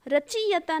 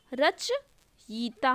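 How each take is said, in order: First: रचयिता mispronounced as "rachee-yata"; long "ee" after ch in रचयिता; wrong form. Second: रचयिता slowly split, "rach... yita"; correct form. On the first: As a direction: say रचयिता as "ra-chee-ya-ta". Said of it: "ये वाला रचयिता नहीं होता". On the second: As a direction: pause before "yita" in रचयिता. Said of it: "रचयिता होता है". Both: Shown as a demonstration.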